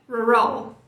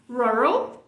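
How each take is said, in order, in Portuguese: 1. A sílaba tônica é a segunda. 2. A sílaba tônica é a primeira. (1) "não é rural" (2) "a primeira. Então é rural"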